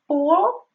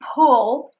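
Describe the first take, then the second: First: The p is said without a puff of air. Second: The p is said with a puff of air. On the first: The speaker calls it wrong. "she said pull without the aspiration" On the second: The speaker calls it right. "instead of pull"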